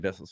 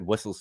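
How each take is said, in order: First: The name begins with a V sound. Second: The name begins with a W sound. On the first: "and Vessels for the other. I think it's Vessels" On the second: "I said Wessels for one"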